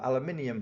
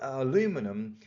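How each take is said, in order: First: It is said the British way, aluminium. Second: It is said the American way, aluminum.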